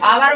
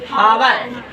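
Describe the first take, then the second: First: The word begins directly with a vowel. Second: The word begins with an h sound. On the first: The speaker calls it right. "तो आ आ रहा है यानी आपका स्वर आ रहा है।" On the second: The speaker calls it wrong. "ऐसे पढ़िएगा तो एकदम सिस्टम गलत है"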